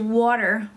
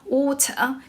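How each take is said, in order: First: It is said in an American accent. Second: It is said in a British accent. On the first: "然后 American 是" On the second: "就是 British accent"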